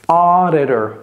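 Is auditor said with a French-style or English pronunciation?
English. It is pronounced the English way. The speaker calls it right.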